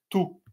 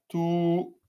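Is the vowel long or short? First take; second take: short; long. First: The vowel is cut short and clipped. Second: The vowel is held for two beats. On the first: The speaker calls it wrong. "ça, c'est c'est sec. Tout. Non" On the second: The speaker calls it right. "On prolonge de deux temps"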